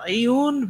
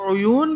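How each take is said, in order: First: The first vowel is an i sound. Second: The first vowel is an u sound.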